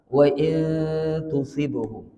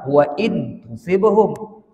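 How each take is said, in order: First: The n is softened into a hidden nasal. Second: The n is pronounced fully and clearly. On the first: The speaker calls it right. "Ini ikhfa" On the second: The speaker calls it wrong. "Kalau izhar"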